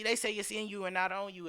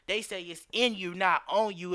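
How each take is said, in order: First: It is said at normal speed. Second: It is said slowly.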